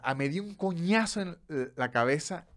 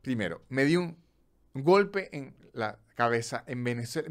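First: Coñazo hit harder, rising; stress on coñazo. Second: Said in the usual way. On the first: Shown as a demonstration. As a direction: land on coñazo with force. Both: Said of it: "Ya en intención es completamente distinto".

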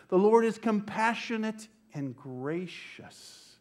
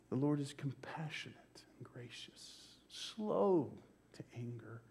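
First: Slow, raised preaching declaration; slow, full-voiced scripture proclamation; proclaiming. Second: Hushed, reverent whisper; a reverent whisper of the psalm to the church; whispered scripture. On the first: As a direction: lift the Lord up for the congregation. Proclaiming the psalm. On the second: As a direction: breathe the words in awe. Repeating the psalm line hushed. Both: Real, not acted.

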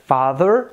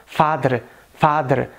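First: "father" with TH and American R; American accent. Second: "father" with D for TH and tapped R; Indian English accent. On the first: Teacher giving the American version, American accent. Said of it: "em inglês americano". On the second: Teacher contrasting with American, Indian accent. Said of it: "e no inglês indiano". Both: Shown as a demonstration.

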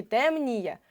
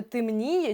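First: ТЕМНІЄ with a clear first Е; чітке Е. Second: ТЕМНІЄ said as «tymniye»; И замість Е. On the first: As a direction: sound out ТЕМ-НІЄ with a full Е. (ТЕМНІЄ з виразним першим Е) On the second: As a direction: put И in the first syllable of ТЕМНІЄ. (ТЕМНІЄ як «тимніє») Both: Shown as a demonstration. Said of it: "Може, темніє чи темніє".

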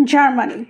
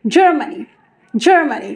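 First: "জার্মানি" with an open ar vowel; old wrong Germany. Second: "জার্মানি" with an English jur vowel; correct Germany. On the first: Teacher shows former habit, broad "জার্মানি". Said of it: "আমরা বলতাম". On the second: Teacher models the correction, English-style "জার্মানি". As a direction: begin "জার্মানি" as jur, not jar. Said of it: "correctly আমরা এখন থেকে বলবো". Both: Shown as a demonstration.

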